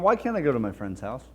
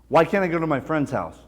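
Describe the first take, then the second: First: The voice sounds calm and questioning. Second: The voice sounds aggressive and demanding. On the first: The speaker wants a discussion. "It's calm, cool, and collected" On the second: The speaker is starting an argument. "it's aggressive. It's demanding"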